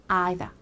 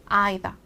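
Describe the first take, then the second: No difference in how they are said.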